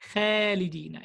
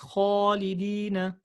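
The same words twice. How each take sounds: First: The long a after kh sounds thin. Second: The long a after kh sounds thick. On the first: The speaker calls it wrong. "It's not khalidina" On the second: The speaker calls it right. "It's khalidina"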